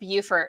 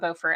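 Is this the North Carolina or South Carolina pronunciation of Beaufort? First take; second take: South Carolina; North Carolina. First: It uses the South Carolina pronunciation. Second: It uses the North Carolina pronunciation. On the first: The speaker calls it right. "Beaufort is pronounced Beaufort, That's how South Carolinians say it" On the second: The speaker calls it wrong. "not Beaufort"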